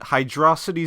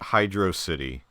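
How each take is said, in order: First: It is one word rhyming with atrocity. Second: It is two words, hydro plus city. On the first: The speaker calls it right. "it rhymes with atrocity" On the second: The speaker calls it wrong. "people insist that it's Hydro City"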